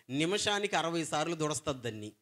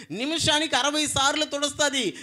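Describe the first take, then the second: First: Said in the usual way. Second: నిమిషానికి hit high and loud, the rest following; stress on నిమిషానికి. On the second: Real, not acted. Preacher hammering home the count, stress on నిమిషానికి. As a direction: punch నిమిషానికి and carry the count.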